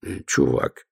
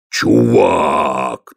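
First: Muttered from the side of the mouth. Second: Low troll voice, triumphant. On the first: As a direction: speak out of the corner of the mouth. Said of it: "подсказал Ваймс уголком рта". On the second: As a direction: proudly repeat the word. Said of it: "торжествующе сказал Детрит". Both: Acted.

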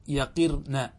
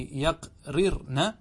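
First: يقرن with one r, as yaqir, na; shortened يقرن, short break before the final na; contracted form. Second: يقررن broken into yaq, rir, na; slow, separated chunks in يقررن; full uncontracted form. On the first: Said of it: "تستطيع أن تقول". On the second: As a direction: sound out both r's in يقررن, syllable by syllable. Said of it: "وذلك نحو قولك في". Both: Shown as a demonstration.

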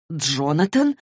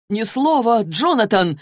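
First: Said in the usual way. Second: Higher, raised-voice order to be silent; acted yell, high and forceful; angry yell. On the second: A narrator's reading. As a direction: shout it as an urgent ban. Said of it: "заорал тот".

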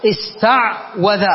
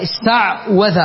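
First: Slow demo. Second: Said in the usual way. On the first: Shown as a demonstration. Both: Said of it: "العين ساكنة والواو مفتوحة متحركة".

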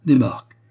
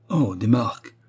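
First: Higher and louder, dismissive des marques; scornful. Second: A deflated oh, rising in letdown; disappointed. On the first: Suzy dismissing the marks, openly scornful. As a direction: drop the word like it's worthless. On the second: Suzy learning it is marks not francs, deflated. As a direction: respect draining away as she says it. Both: A narrator's reading. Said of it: "Tout respect s'était envolé".

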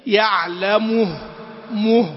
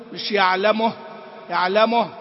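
First: Slow "يعلمه" ending in a full -muh; firm damma before stop. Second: "يعلمه" ending in a lax -moh; loose damma, wrong. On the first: Teacher modelling correct stop, firm damma. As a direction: round the u firmly before the final ه. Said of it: "عدم إحكام حركة الحرف قبل الأخير". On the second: Teacher showing the mistake to avoid, loose damma. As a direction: let the u before final ه slacken toward o. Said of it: "لا". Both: Shown as a demonstration.

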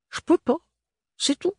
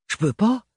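First: Put-on "Je peux pas" much higher, pleading, in a thick provincial French accent; a desperate squeaky refusal, stress on "peux"; pleading maid accent. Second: Put-on "Je peux pas" in a high maid's voice with a thick provincial French accent; firm refusal, stress on "pas". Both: A narrator's reading. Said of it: "L'accent très prononcé de l'adolescente".

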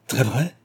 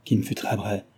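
First: "Très vrai" repeated as a rising question; interrupting echo. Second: Said in the usual way. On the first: A narrator's reading. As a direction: cut in, lifting "vrai" in disbelief. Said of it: "répéta Delville en l'interrompant".

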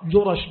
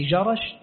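First: جرش pronounced "jurash", with u then a; damma on jim. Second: جرش pronounced "jarash", with a in both syllables; fatha on both letters. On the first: Teacher reading the author's note on Yemen, جرش as "jurash". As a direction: say جرش with a u straight after ج: "jurash". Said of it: "بضم الجيم وفتح الراء". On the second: Teacher clarifying the town in al-Sham, جرش as "jarash". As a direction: say جرش with an a straight after ج: "jarash". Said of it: "وهو بفتحهما". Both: Shown as a demonstration.

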